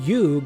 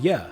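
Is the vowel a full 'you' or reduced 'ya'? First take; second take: full you; reduced ya. First: The word ends in a full oo vowel. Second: The word ends in a weak uh vowel.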